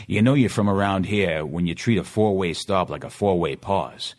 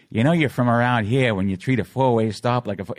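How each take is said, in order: First: Put-on commercial read in a local Boston accent. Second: Higher-pitched smiling Boston ad read; smiling delivery. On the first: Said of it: "my Boston accent and stuff". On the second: Retold or imitated. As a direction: smile through the Boston commercial line. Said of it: "Try smiling when you deliver it".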